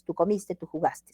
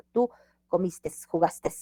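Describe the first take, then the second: First: "comiste" and "jugaste" ending on a clean e; correct endings without S. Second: "comiste" and "jugaste" each with a final s tacked on; wrong added S. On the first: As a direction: model "comiste" and "jugaste" with no final s. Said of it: "sin la S". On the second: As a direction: slowly show the error, "comiste" and "jugaste" ending in -tes. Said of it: "es un error". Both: Shown as a demonstration.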